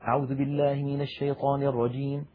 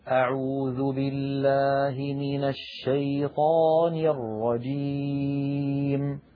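First: The phrase is recited quickly. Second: The phrase is recited slowly and calmly. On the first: "حذر فلان بمعنى أسرع" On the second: "بطء وتؤذى"

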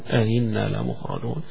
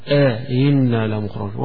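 First: No long vowel separates the two hamzas. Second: A long inserted vowel separates the two hamzas. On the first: "ولكن من غير مد" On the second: "يبقى هنا يمدها"

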